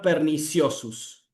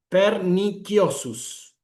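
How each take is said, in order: First: It uses the vulgar pronunciation of the c. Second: It uses the classical pronunciation of the c. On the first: The speaker calls it wrong. "la pronunciación vulgar" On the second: The speaker calls it right. "una pronunciación clásica del latín"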